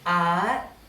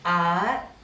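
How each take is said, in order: First: The syllable is said with a high tone. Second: The same.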